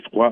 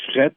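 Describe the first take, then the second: First: The word is said with a 'wa' vowel, like 'frwa'. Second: The word is said with an 'e' vowel, like 'fret'. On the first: This is how the word is said in France. "froid en France" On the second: This is how the word is said in Quebec. "fret au Québec"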